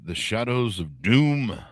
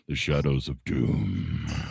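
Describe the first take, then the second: First: It is said in an ordinary speaking voice. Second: It is said in a deep, dramatic voice.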